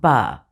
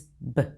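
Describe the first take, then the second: First: The consonant is followed by an uh vowel. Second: The consonant is said with no vowel after it. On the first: The speaker calls it wrong. "not ba. Lose the uh sound at the end" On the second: The speaker calls it right. "the sound to B is B"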